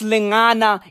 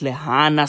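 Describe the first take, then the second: First: The middle consonant is an 'ng' sound. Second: The middle consonant is an 'h' sound. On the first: The speaker calls it right. "it's Lingana in Sesotho and Setswana" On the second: The speaker calls it wrong. "I called it Lihana"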